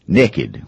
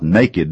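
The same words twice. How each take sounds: First: "naked" said as "nekkid", short e in the first syllable; Southern pronunciation. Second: Said in the usual way. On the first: Shown as a demonstration. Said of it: "We change that word and we say". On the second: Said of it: "naked doesn't quite tell the story".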